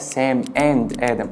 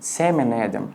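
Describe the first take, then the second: First: It is said slowly with the d in 'and' pronounced. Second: The d in 'and' is dropped, words run together. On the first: "لو بتكلم بالراحة ممكن اقولها" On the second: "كذلك and الده مش بتتنطق في الغالب"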